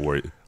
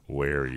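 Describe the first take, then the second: First: The vowel sounds like the one in 'worry'. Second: The vowel sounds like the one in 'wary'. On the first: The speaker calls it wrong. "Not worry" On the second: The speaker calls it right. "Wary. Not worry"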